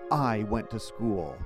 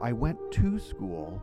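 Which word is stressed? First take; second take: I; to. First: The word I carries the stress. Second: The word to carries the stress.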